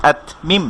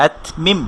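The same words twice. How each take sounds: The two takes are said the same way.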